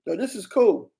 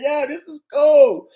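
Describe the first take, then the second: First: Said in the usual way. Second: Higher, louder "Yo, this is cool" with a grin; delighted. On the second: Real, not acted. Streamer replaying his clip for chat, loud and delighted. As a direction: hype it up for chat.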